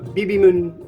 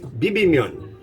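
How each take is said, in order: First: The final syllable sounds like 'mun'. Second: The final syllable sounds like 'myun'. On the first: The speaker calls it wrong. "it's not Bibimun" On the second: The speaker calls it right. "it's Bibimyun, I think"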